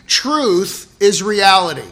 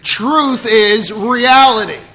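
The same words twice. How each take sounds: First: It is said with ordinary, low energy. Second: It is said with more enthusiasm and energy.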